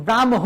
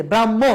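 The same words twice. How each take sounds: First: ব্রাহ্ম as "bram-ho", h sounded after m; spelling pronunciation. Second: ব্রাহ্ম as "brammo", long m, no h; actual pronunciation. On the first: Teacher shows what we don't say, ব্রাহ্ম as "bram-ho". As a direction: split ব্রাহ্ম into bram and a full ho. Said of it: "তো আমরা বলি না". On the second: Teacher shows students what we really say, ব্রাহ্ম as "brammo". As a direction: let the m double in ব্রাহ্ম, dropping the h. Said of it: "প্রকৃতপক্ষে আমরা বলি". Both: Shown as a demonstration.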